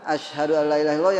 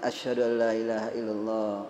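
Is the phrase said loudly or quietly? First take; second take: loudly; quietly. First: The phrase is said loudly and strongly. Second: The phrase is said softly and slowly. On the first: The caller proclaims it to the people. "yang kuat" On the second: The caller says it first to himself.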